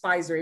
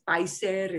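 First: The brand name is said with English sounds. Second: The brand name is said with Spanish sounds. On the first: The speaker calls it wrong. "no es Pfizer" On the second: The speaker calls it right. "it becomes Spanishized"

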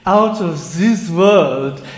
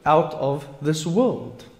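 First: It is said in a put-on character accent. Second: It is said in the speaker's ordinary accent.

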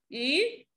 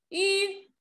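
First: The pitch rises from middle to high. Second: The pitch stays high and level.

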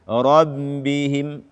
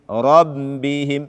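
The two takes are said the same way.

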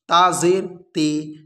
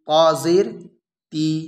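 First: The final vowel is an 'ay' sound. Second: The final vowel is a long 'ee' sound. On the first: The speaker calls it wrong. "इस तरीके से हमको नहीं पढ़ना है।" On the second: The speaker calls it right. "इस तरीके से हमको पढ़ना है।"

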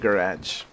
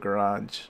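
First: The word is said in a British accent. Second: The word is said in an American accent.

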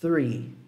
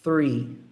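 First: It starts with the tongue between the teeth. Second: The same.

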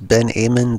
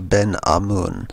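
First: Amun does not begin with an 'ah' sound. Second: Amun begins with an 'ah' sound. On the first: The speaker calls it wrong. "A lot of people pronounce this as Ben Amun. That would be incorrect" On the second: The speaker calls it right. "It's Ben A-H. if you were spelling it out, it would be A-H hyphen M-O-O-N"

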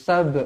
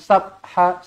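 First: The final b ends with a short bounce. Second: The b runs on into an added vowel. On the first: The speaker calls it right. "Lantunkan dia sab" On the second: The speaker calls it wrong. "jangan sabha"

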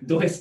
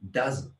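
First: The word is said as two syllables. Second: The word is said as one syllable. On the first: The speaker calls it wrong. "そのまま読んだらdo is っていうふうに聞こえる" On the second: The speaker calls it right. "does っていうんですね"

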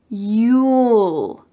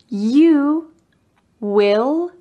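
First: The two words are joined into one syllable. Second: The two words are said in full as two syllables. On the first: "Make sure you have a clear L" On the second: "The next contractions include the word will"

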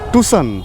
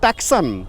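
First: No k sound is pronounced in the middle. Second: A k sound is pronounced in the middle. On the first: The speaker calls it right. "ও সিটা উচ্চারণ হয় না" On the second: The speaker calls it wrong. "এই গাড়িটার নাম কি টাকসান?"

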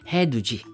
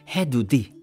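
First: The last syllable begins with a j sound. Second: The last syllable begins with a d sound. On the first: The speaker calls it right. "it's he-du-ji" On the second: The speaker calls it wrong. "Not he-du-di"

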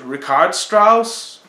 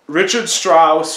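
First: The name is pronounced the German way. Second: The name is pronounced the English way.

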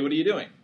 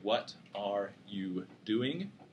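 First: The words are run together. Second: The words are clearly separated.

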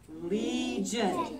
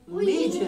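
First: The word is said slowly. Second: The word is said fast.

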